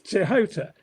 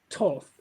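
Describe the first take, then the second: First: The name is said with several syllables, Tehota. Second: The name is said as one syllable, Toth. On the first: The speaker calls it right. "It's Tehota" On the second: The speaker calls it wrong. "It looks as though it's pronounced Toth, but it isn't"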